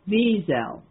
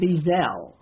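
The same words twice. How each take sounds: First: Both syllables get equal stress. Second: The stress falls on the second syllable. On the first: The speaker calls it right. "his last name is pronounced Wiesel" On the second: The speaker calls it wrong. "It's not Wiesel"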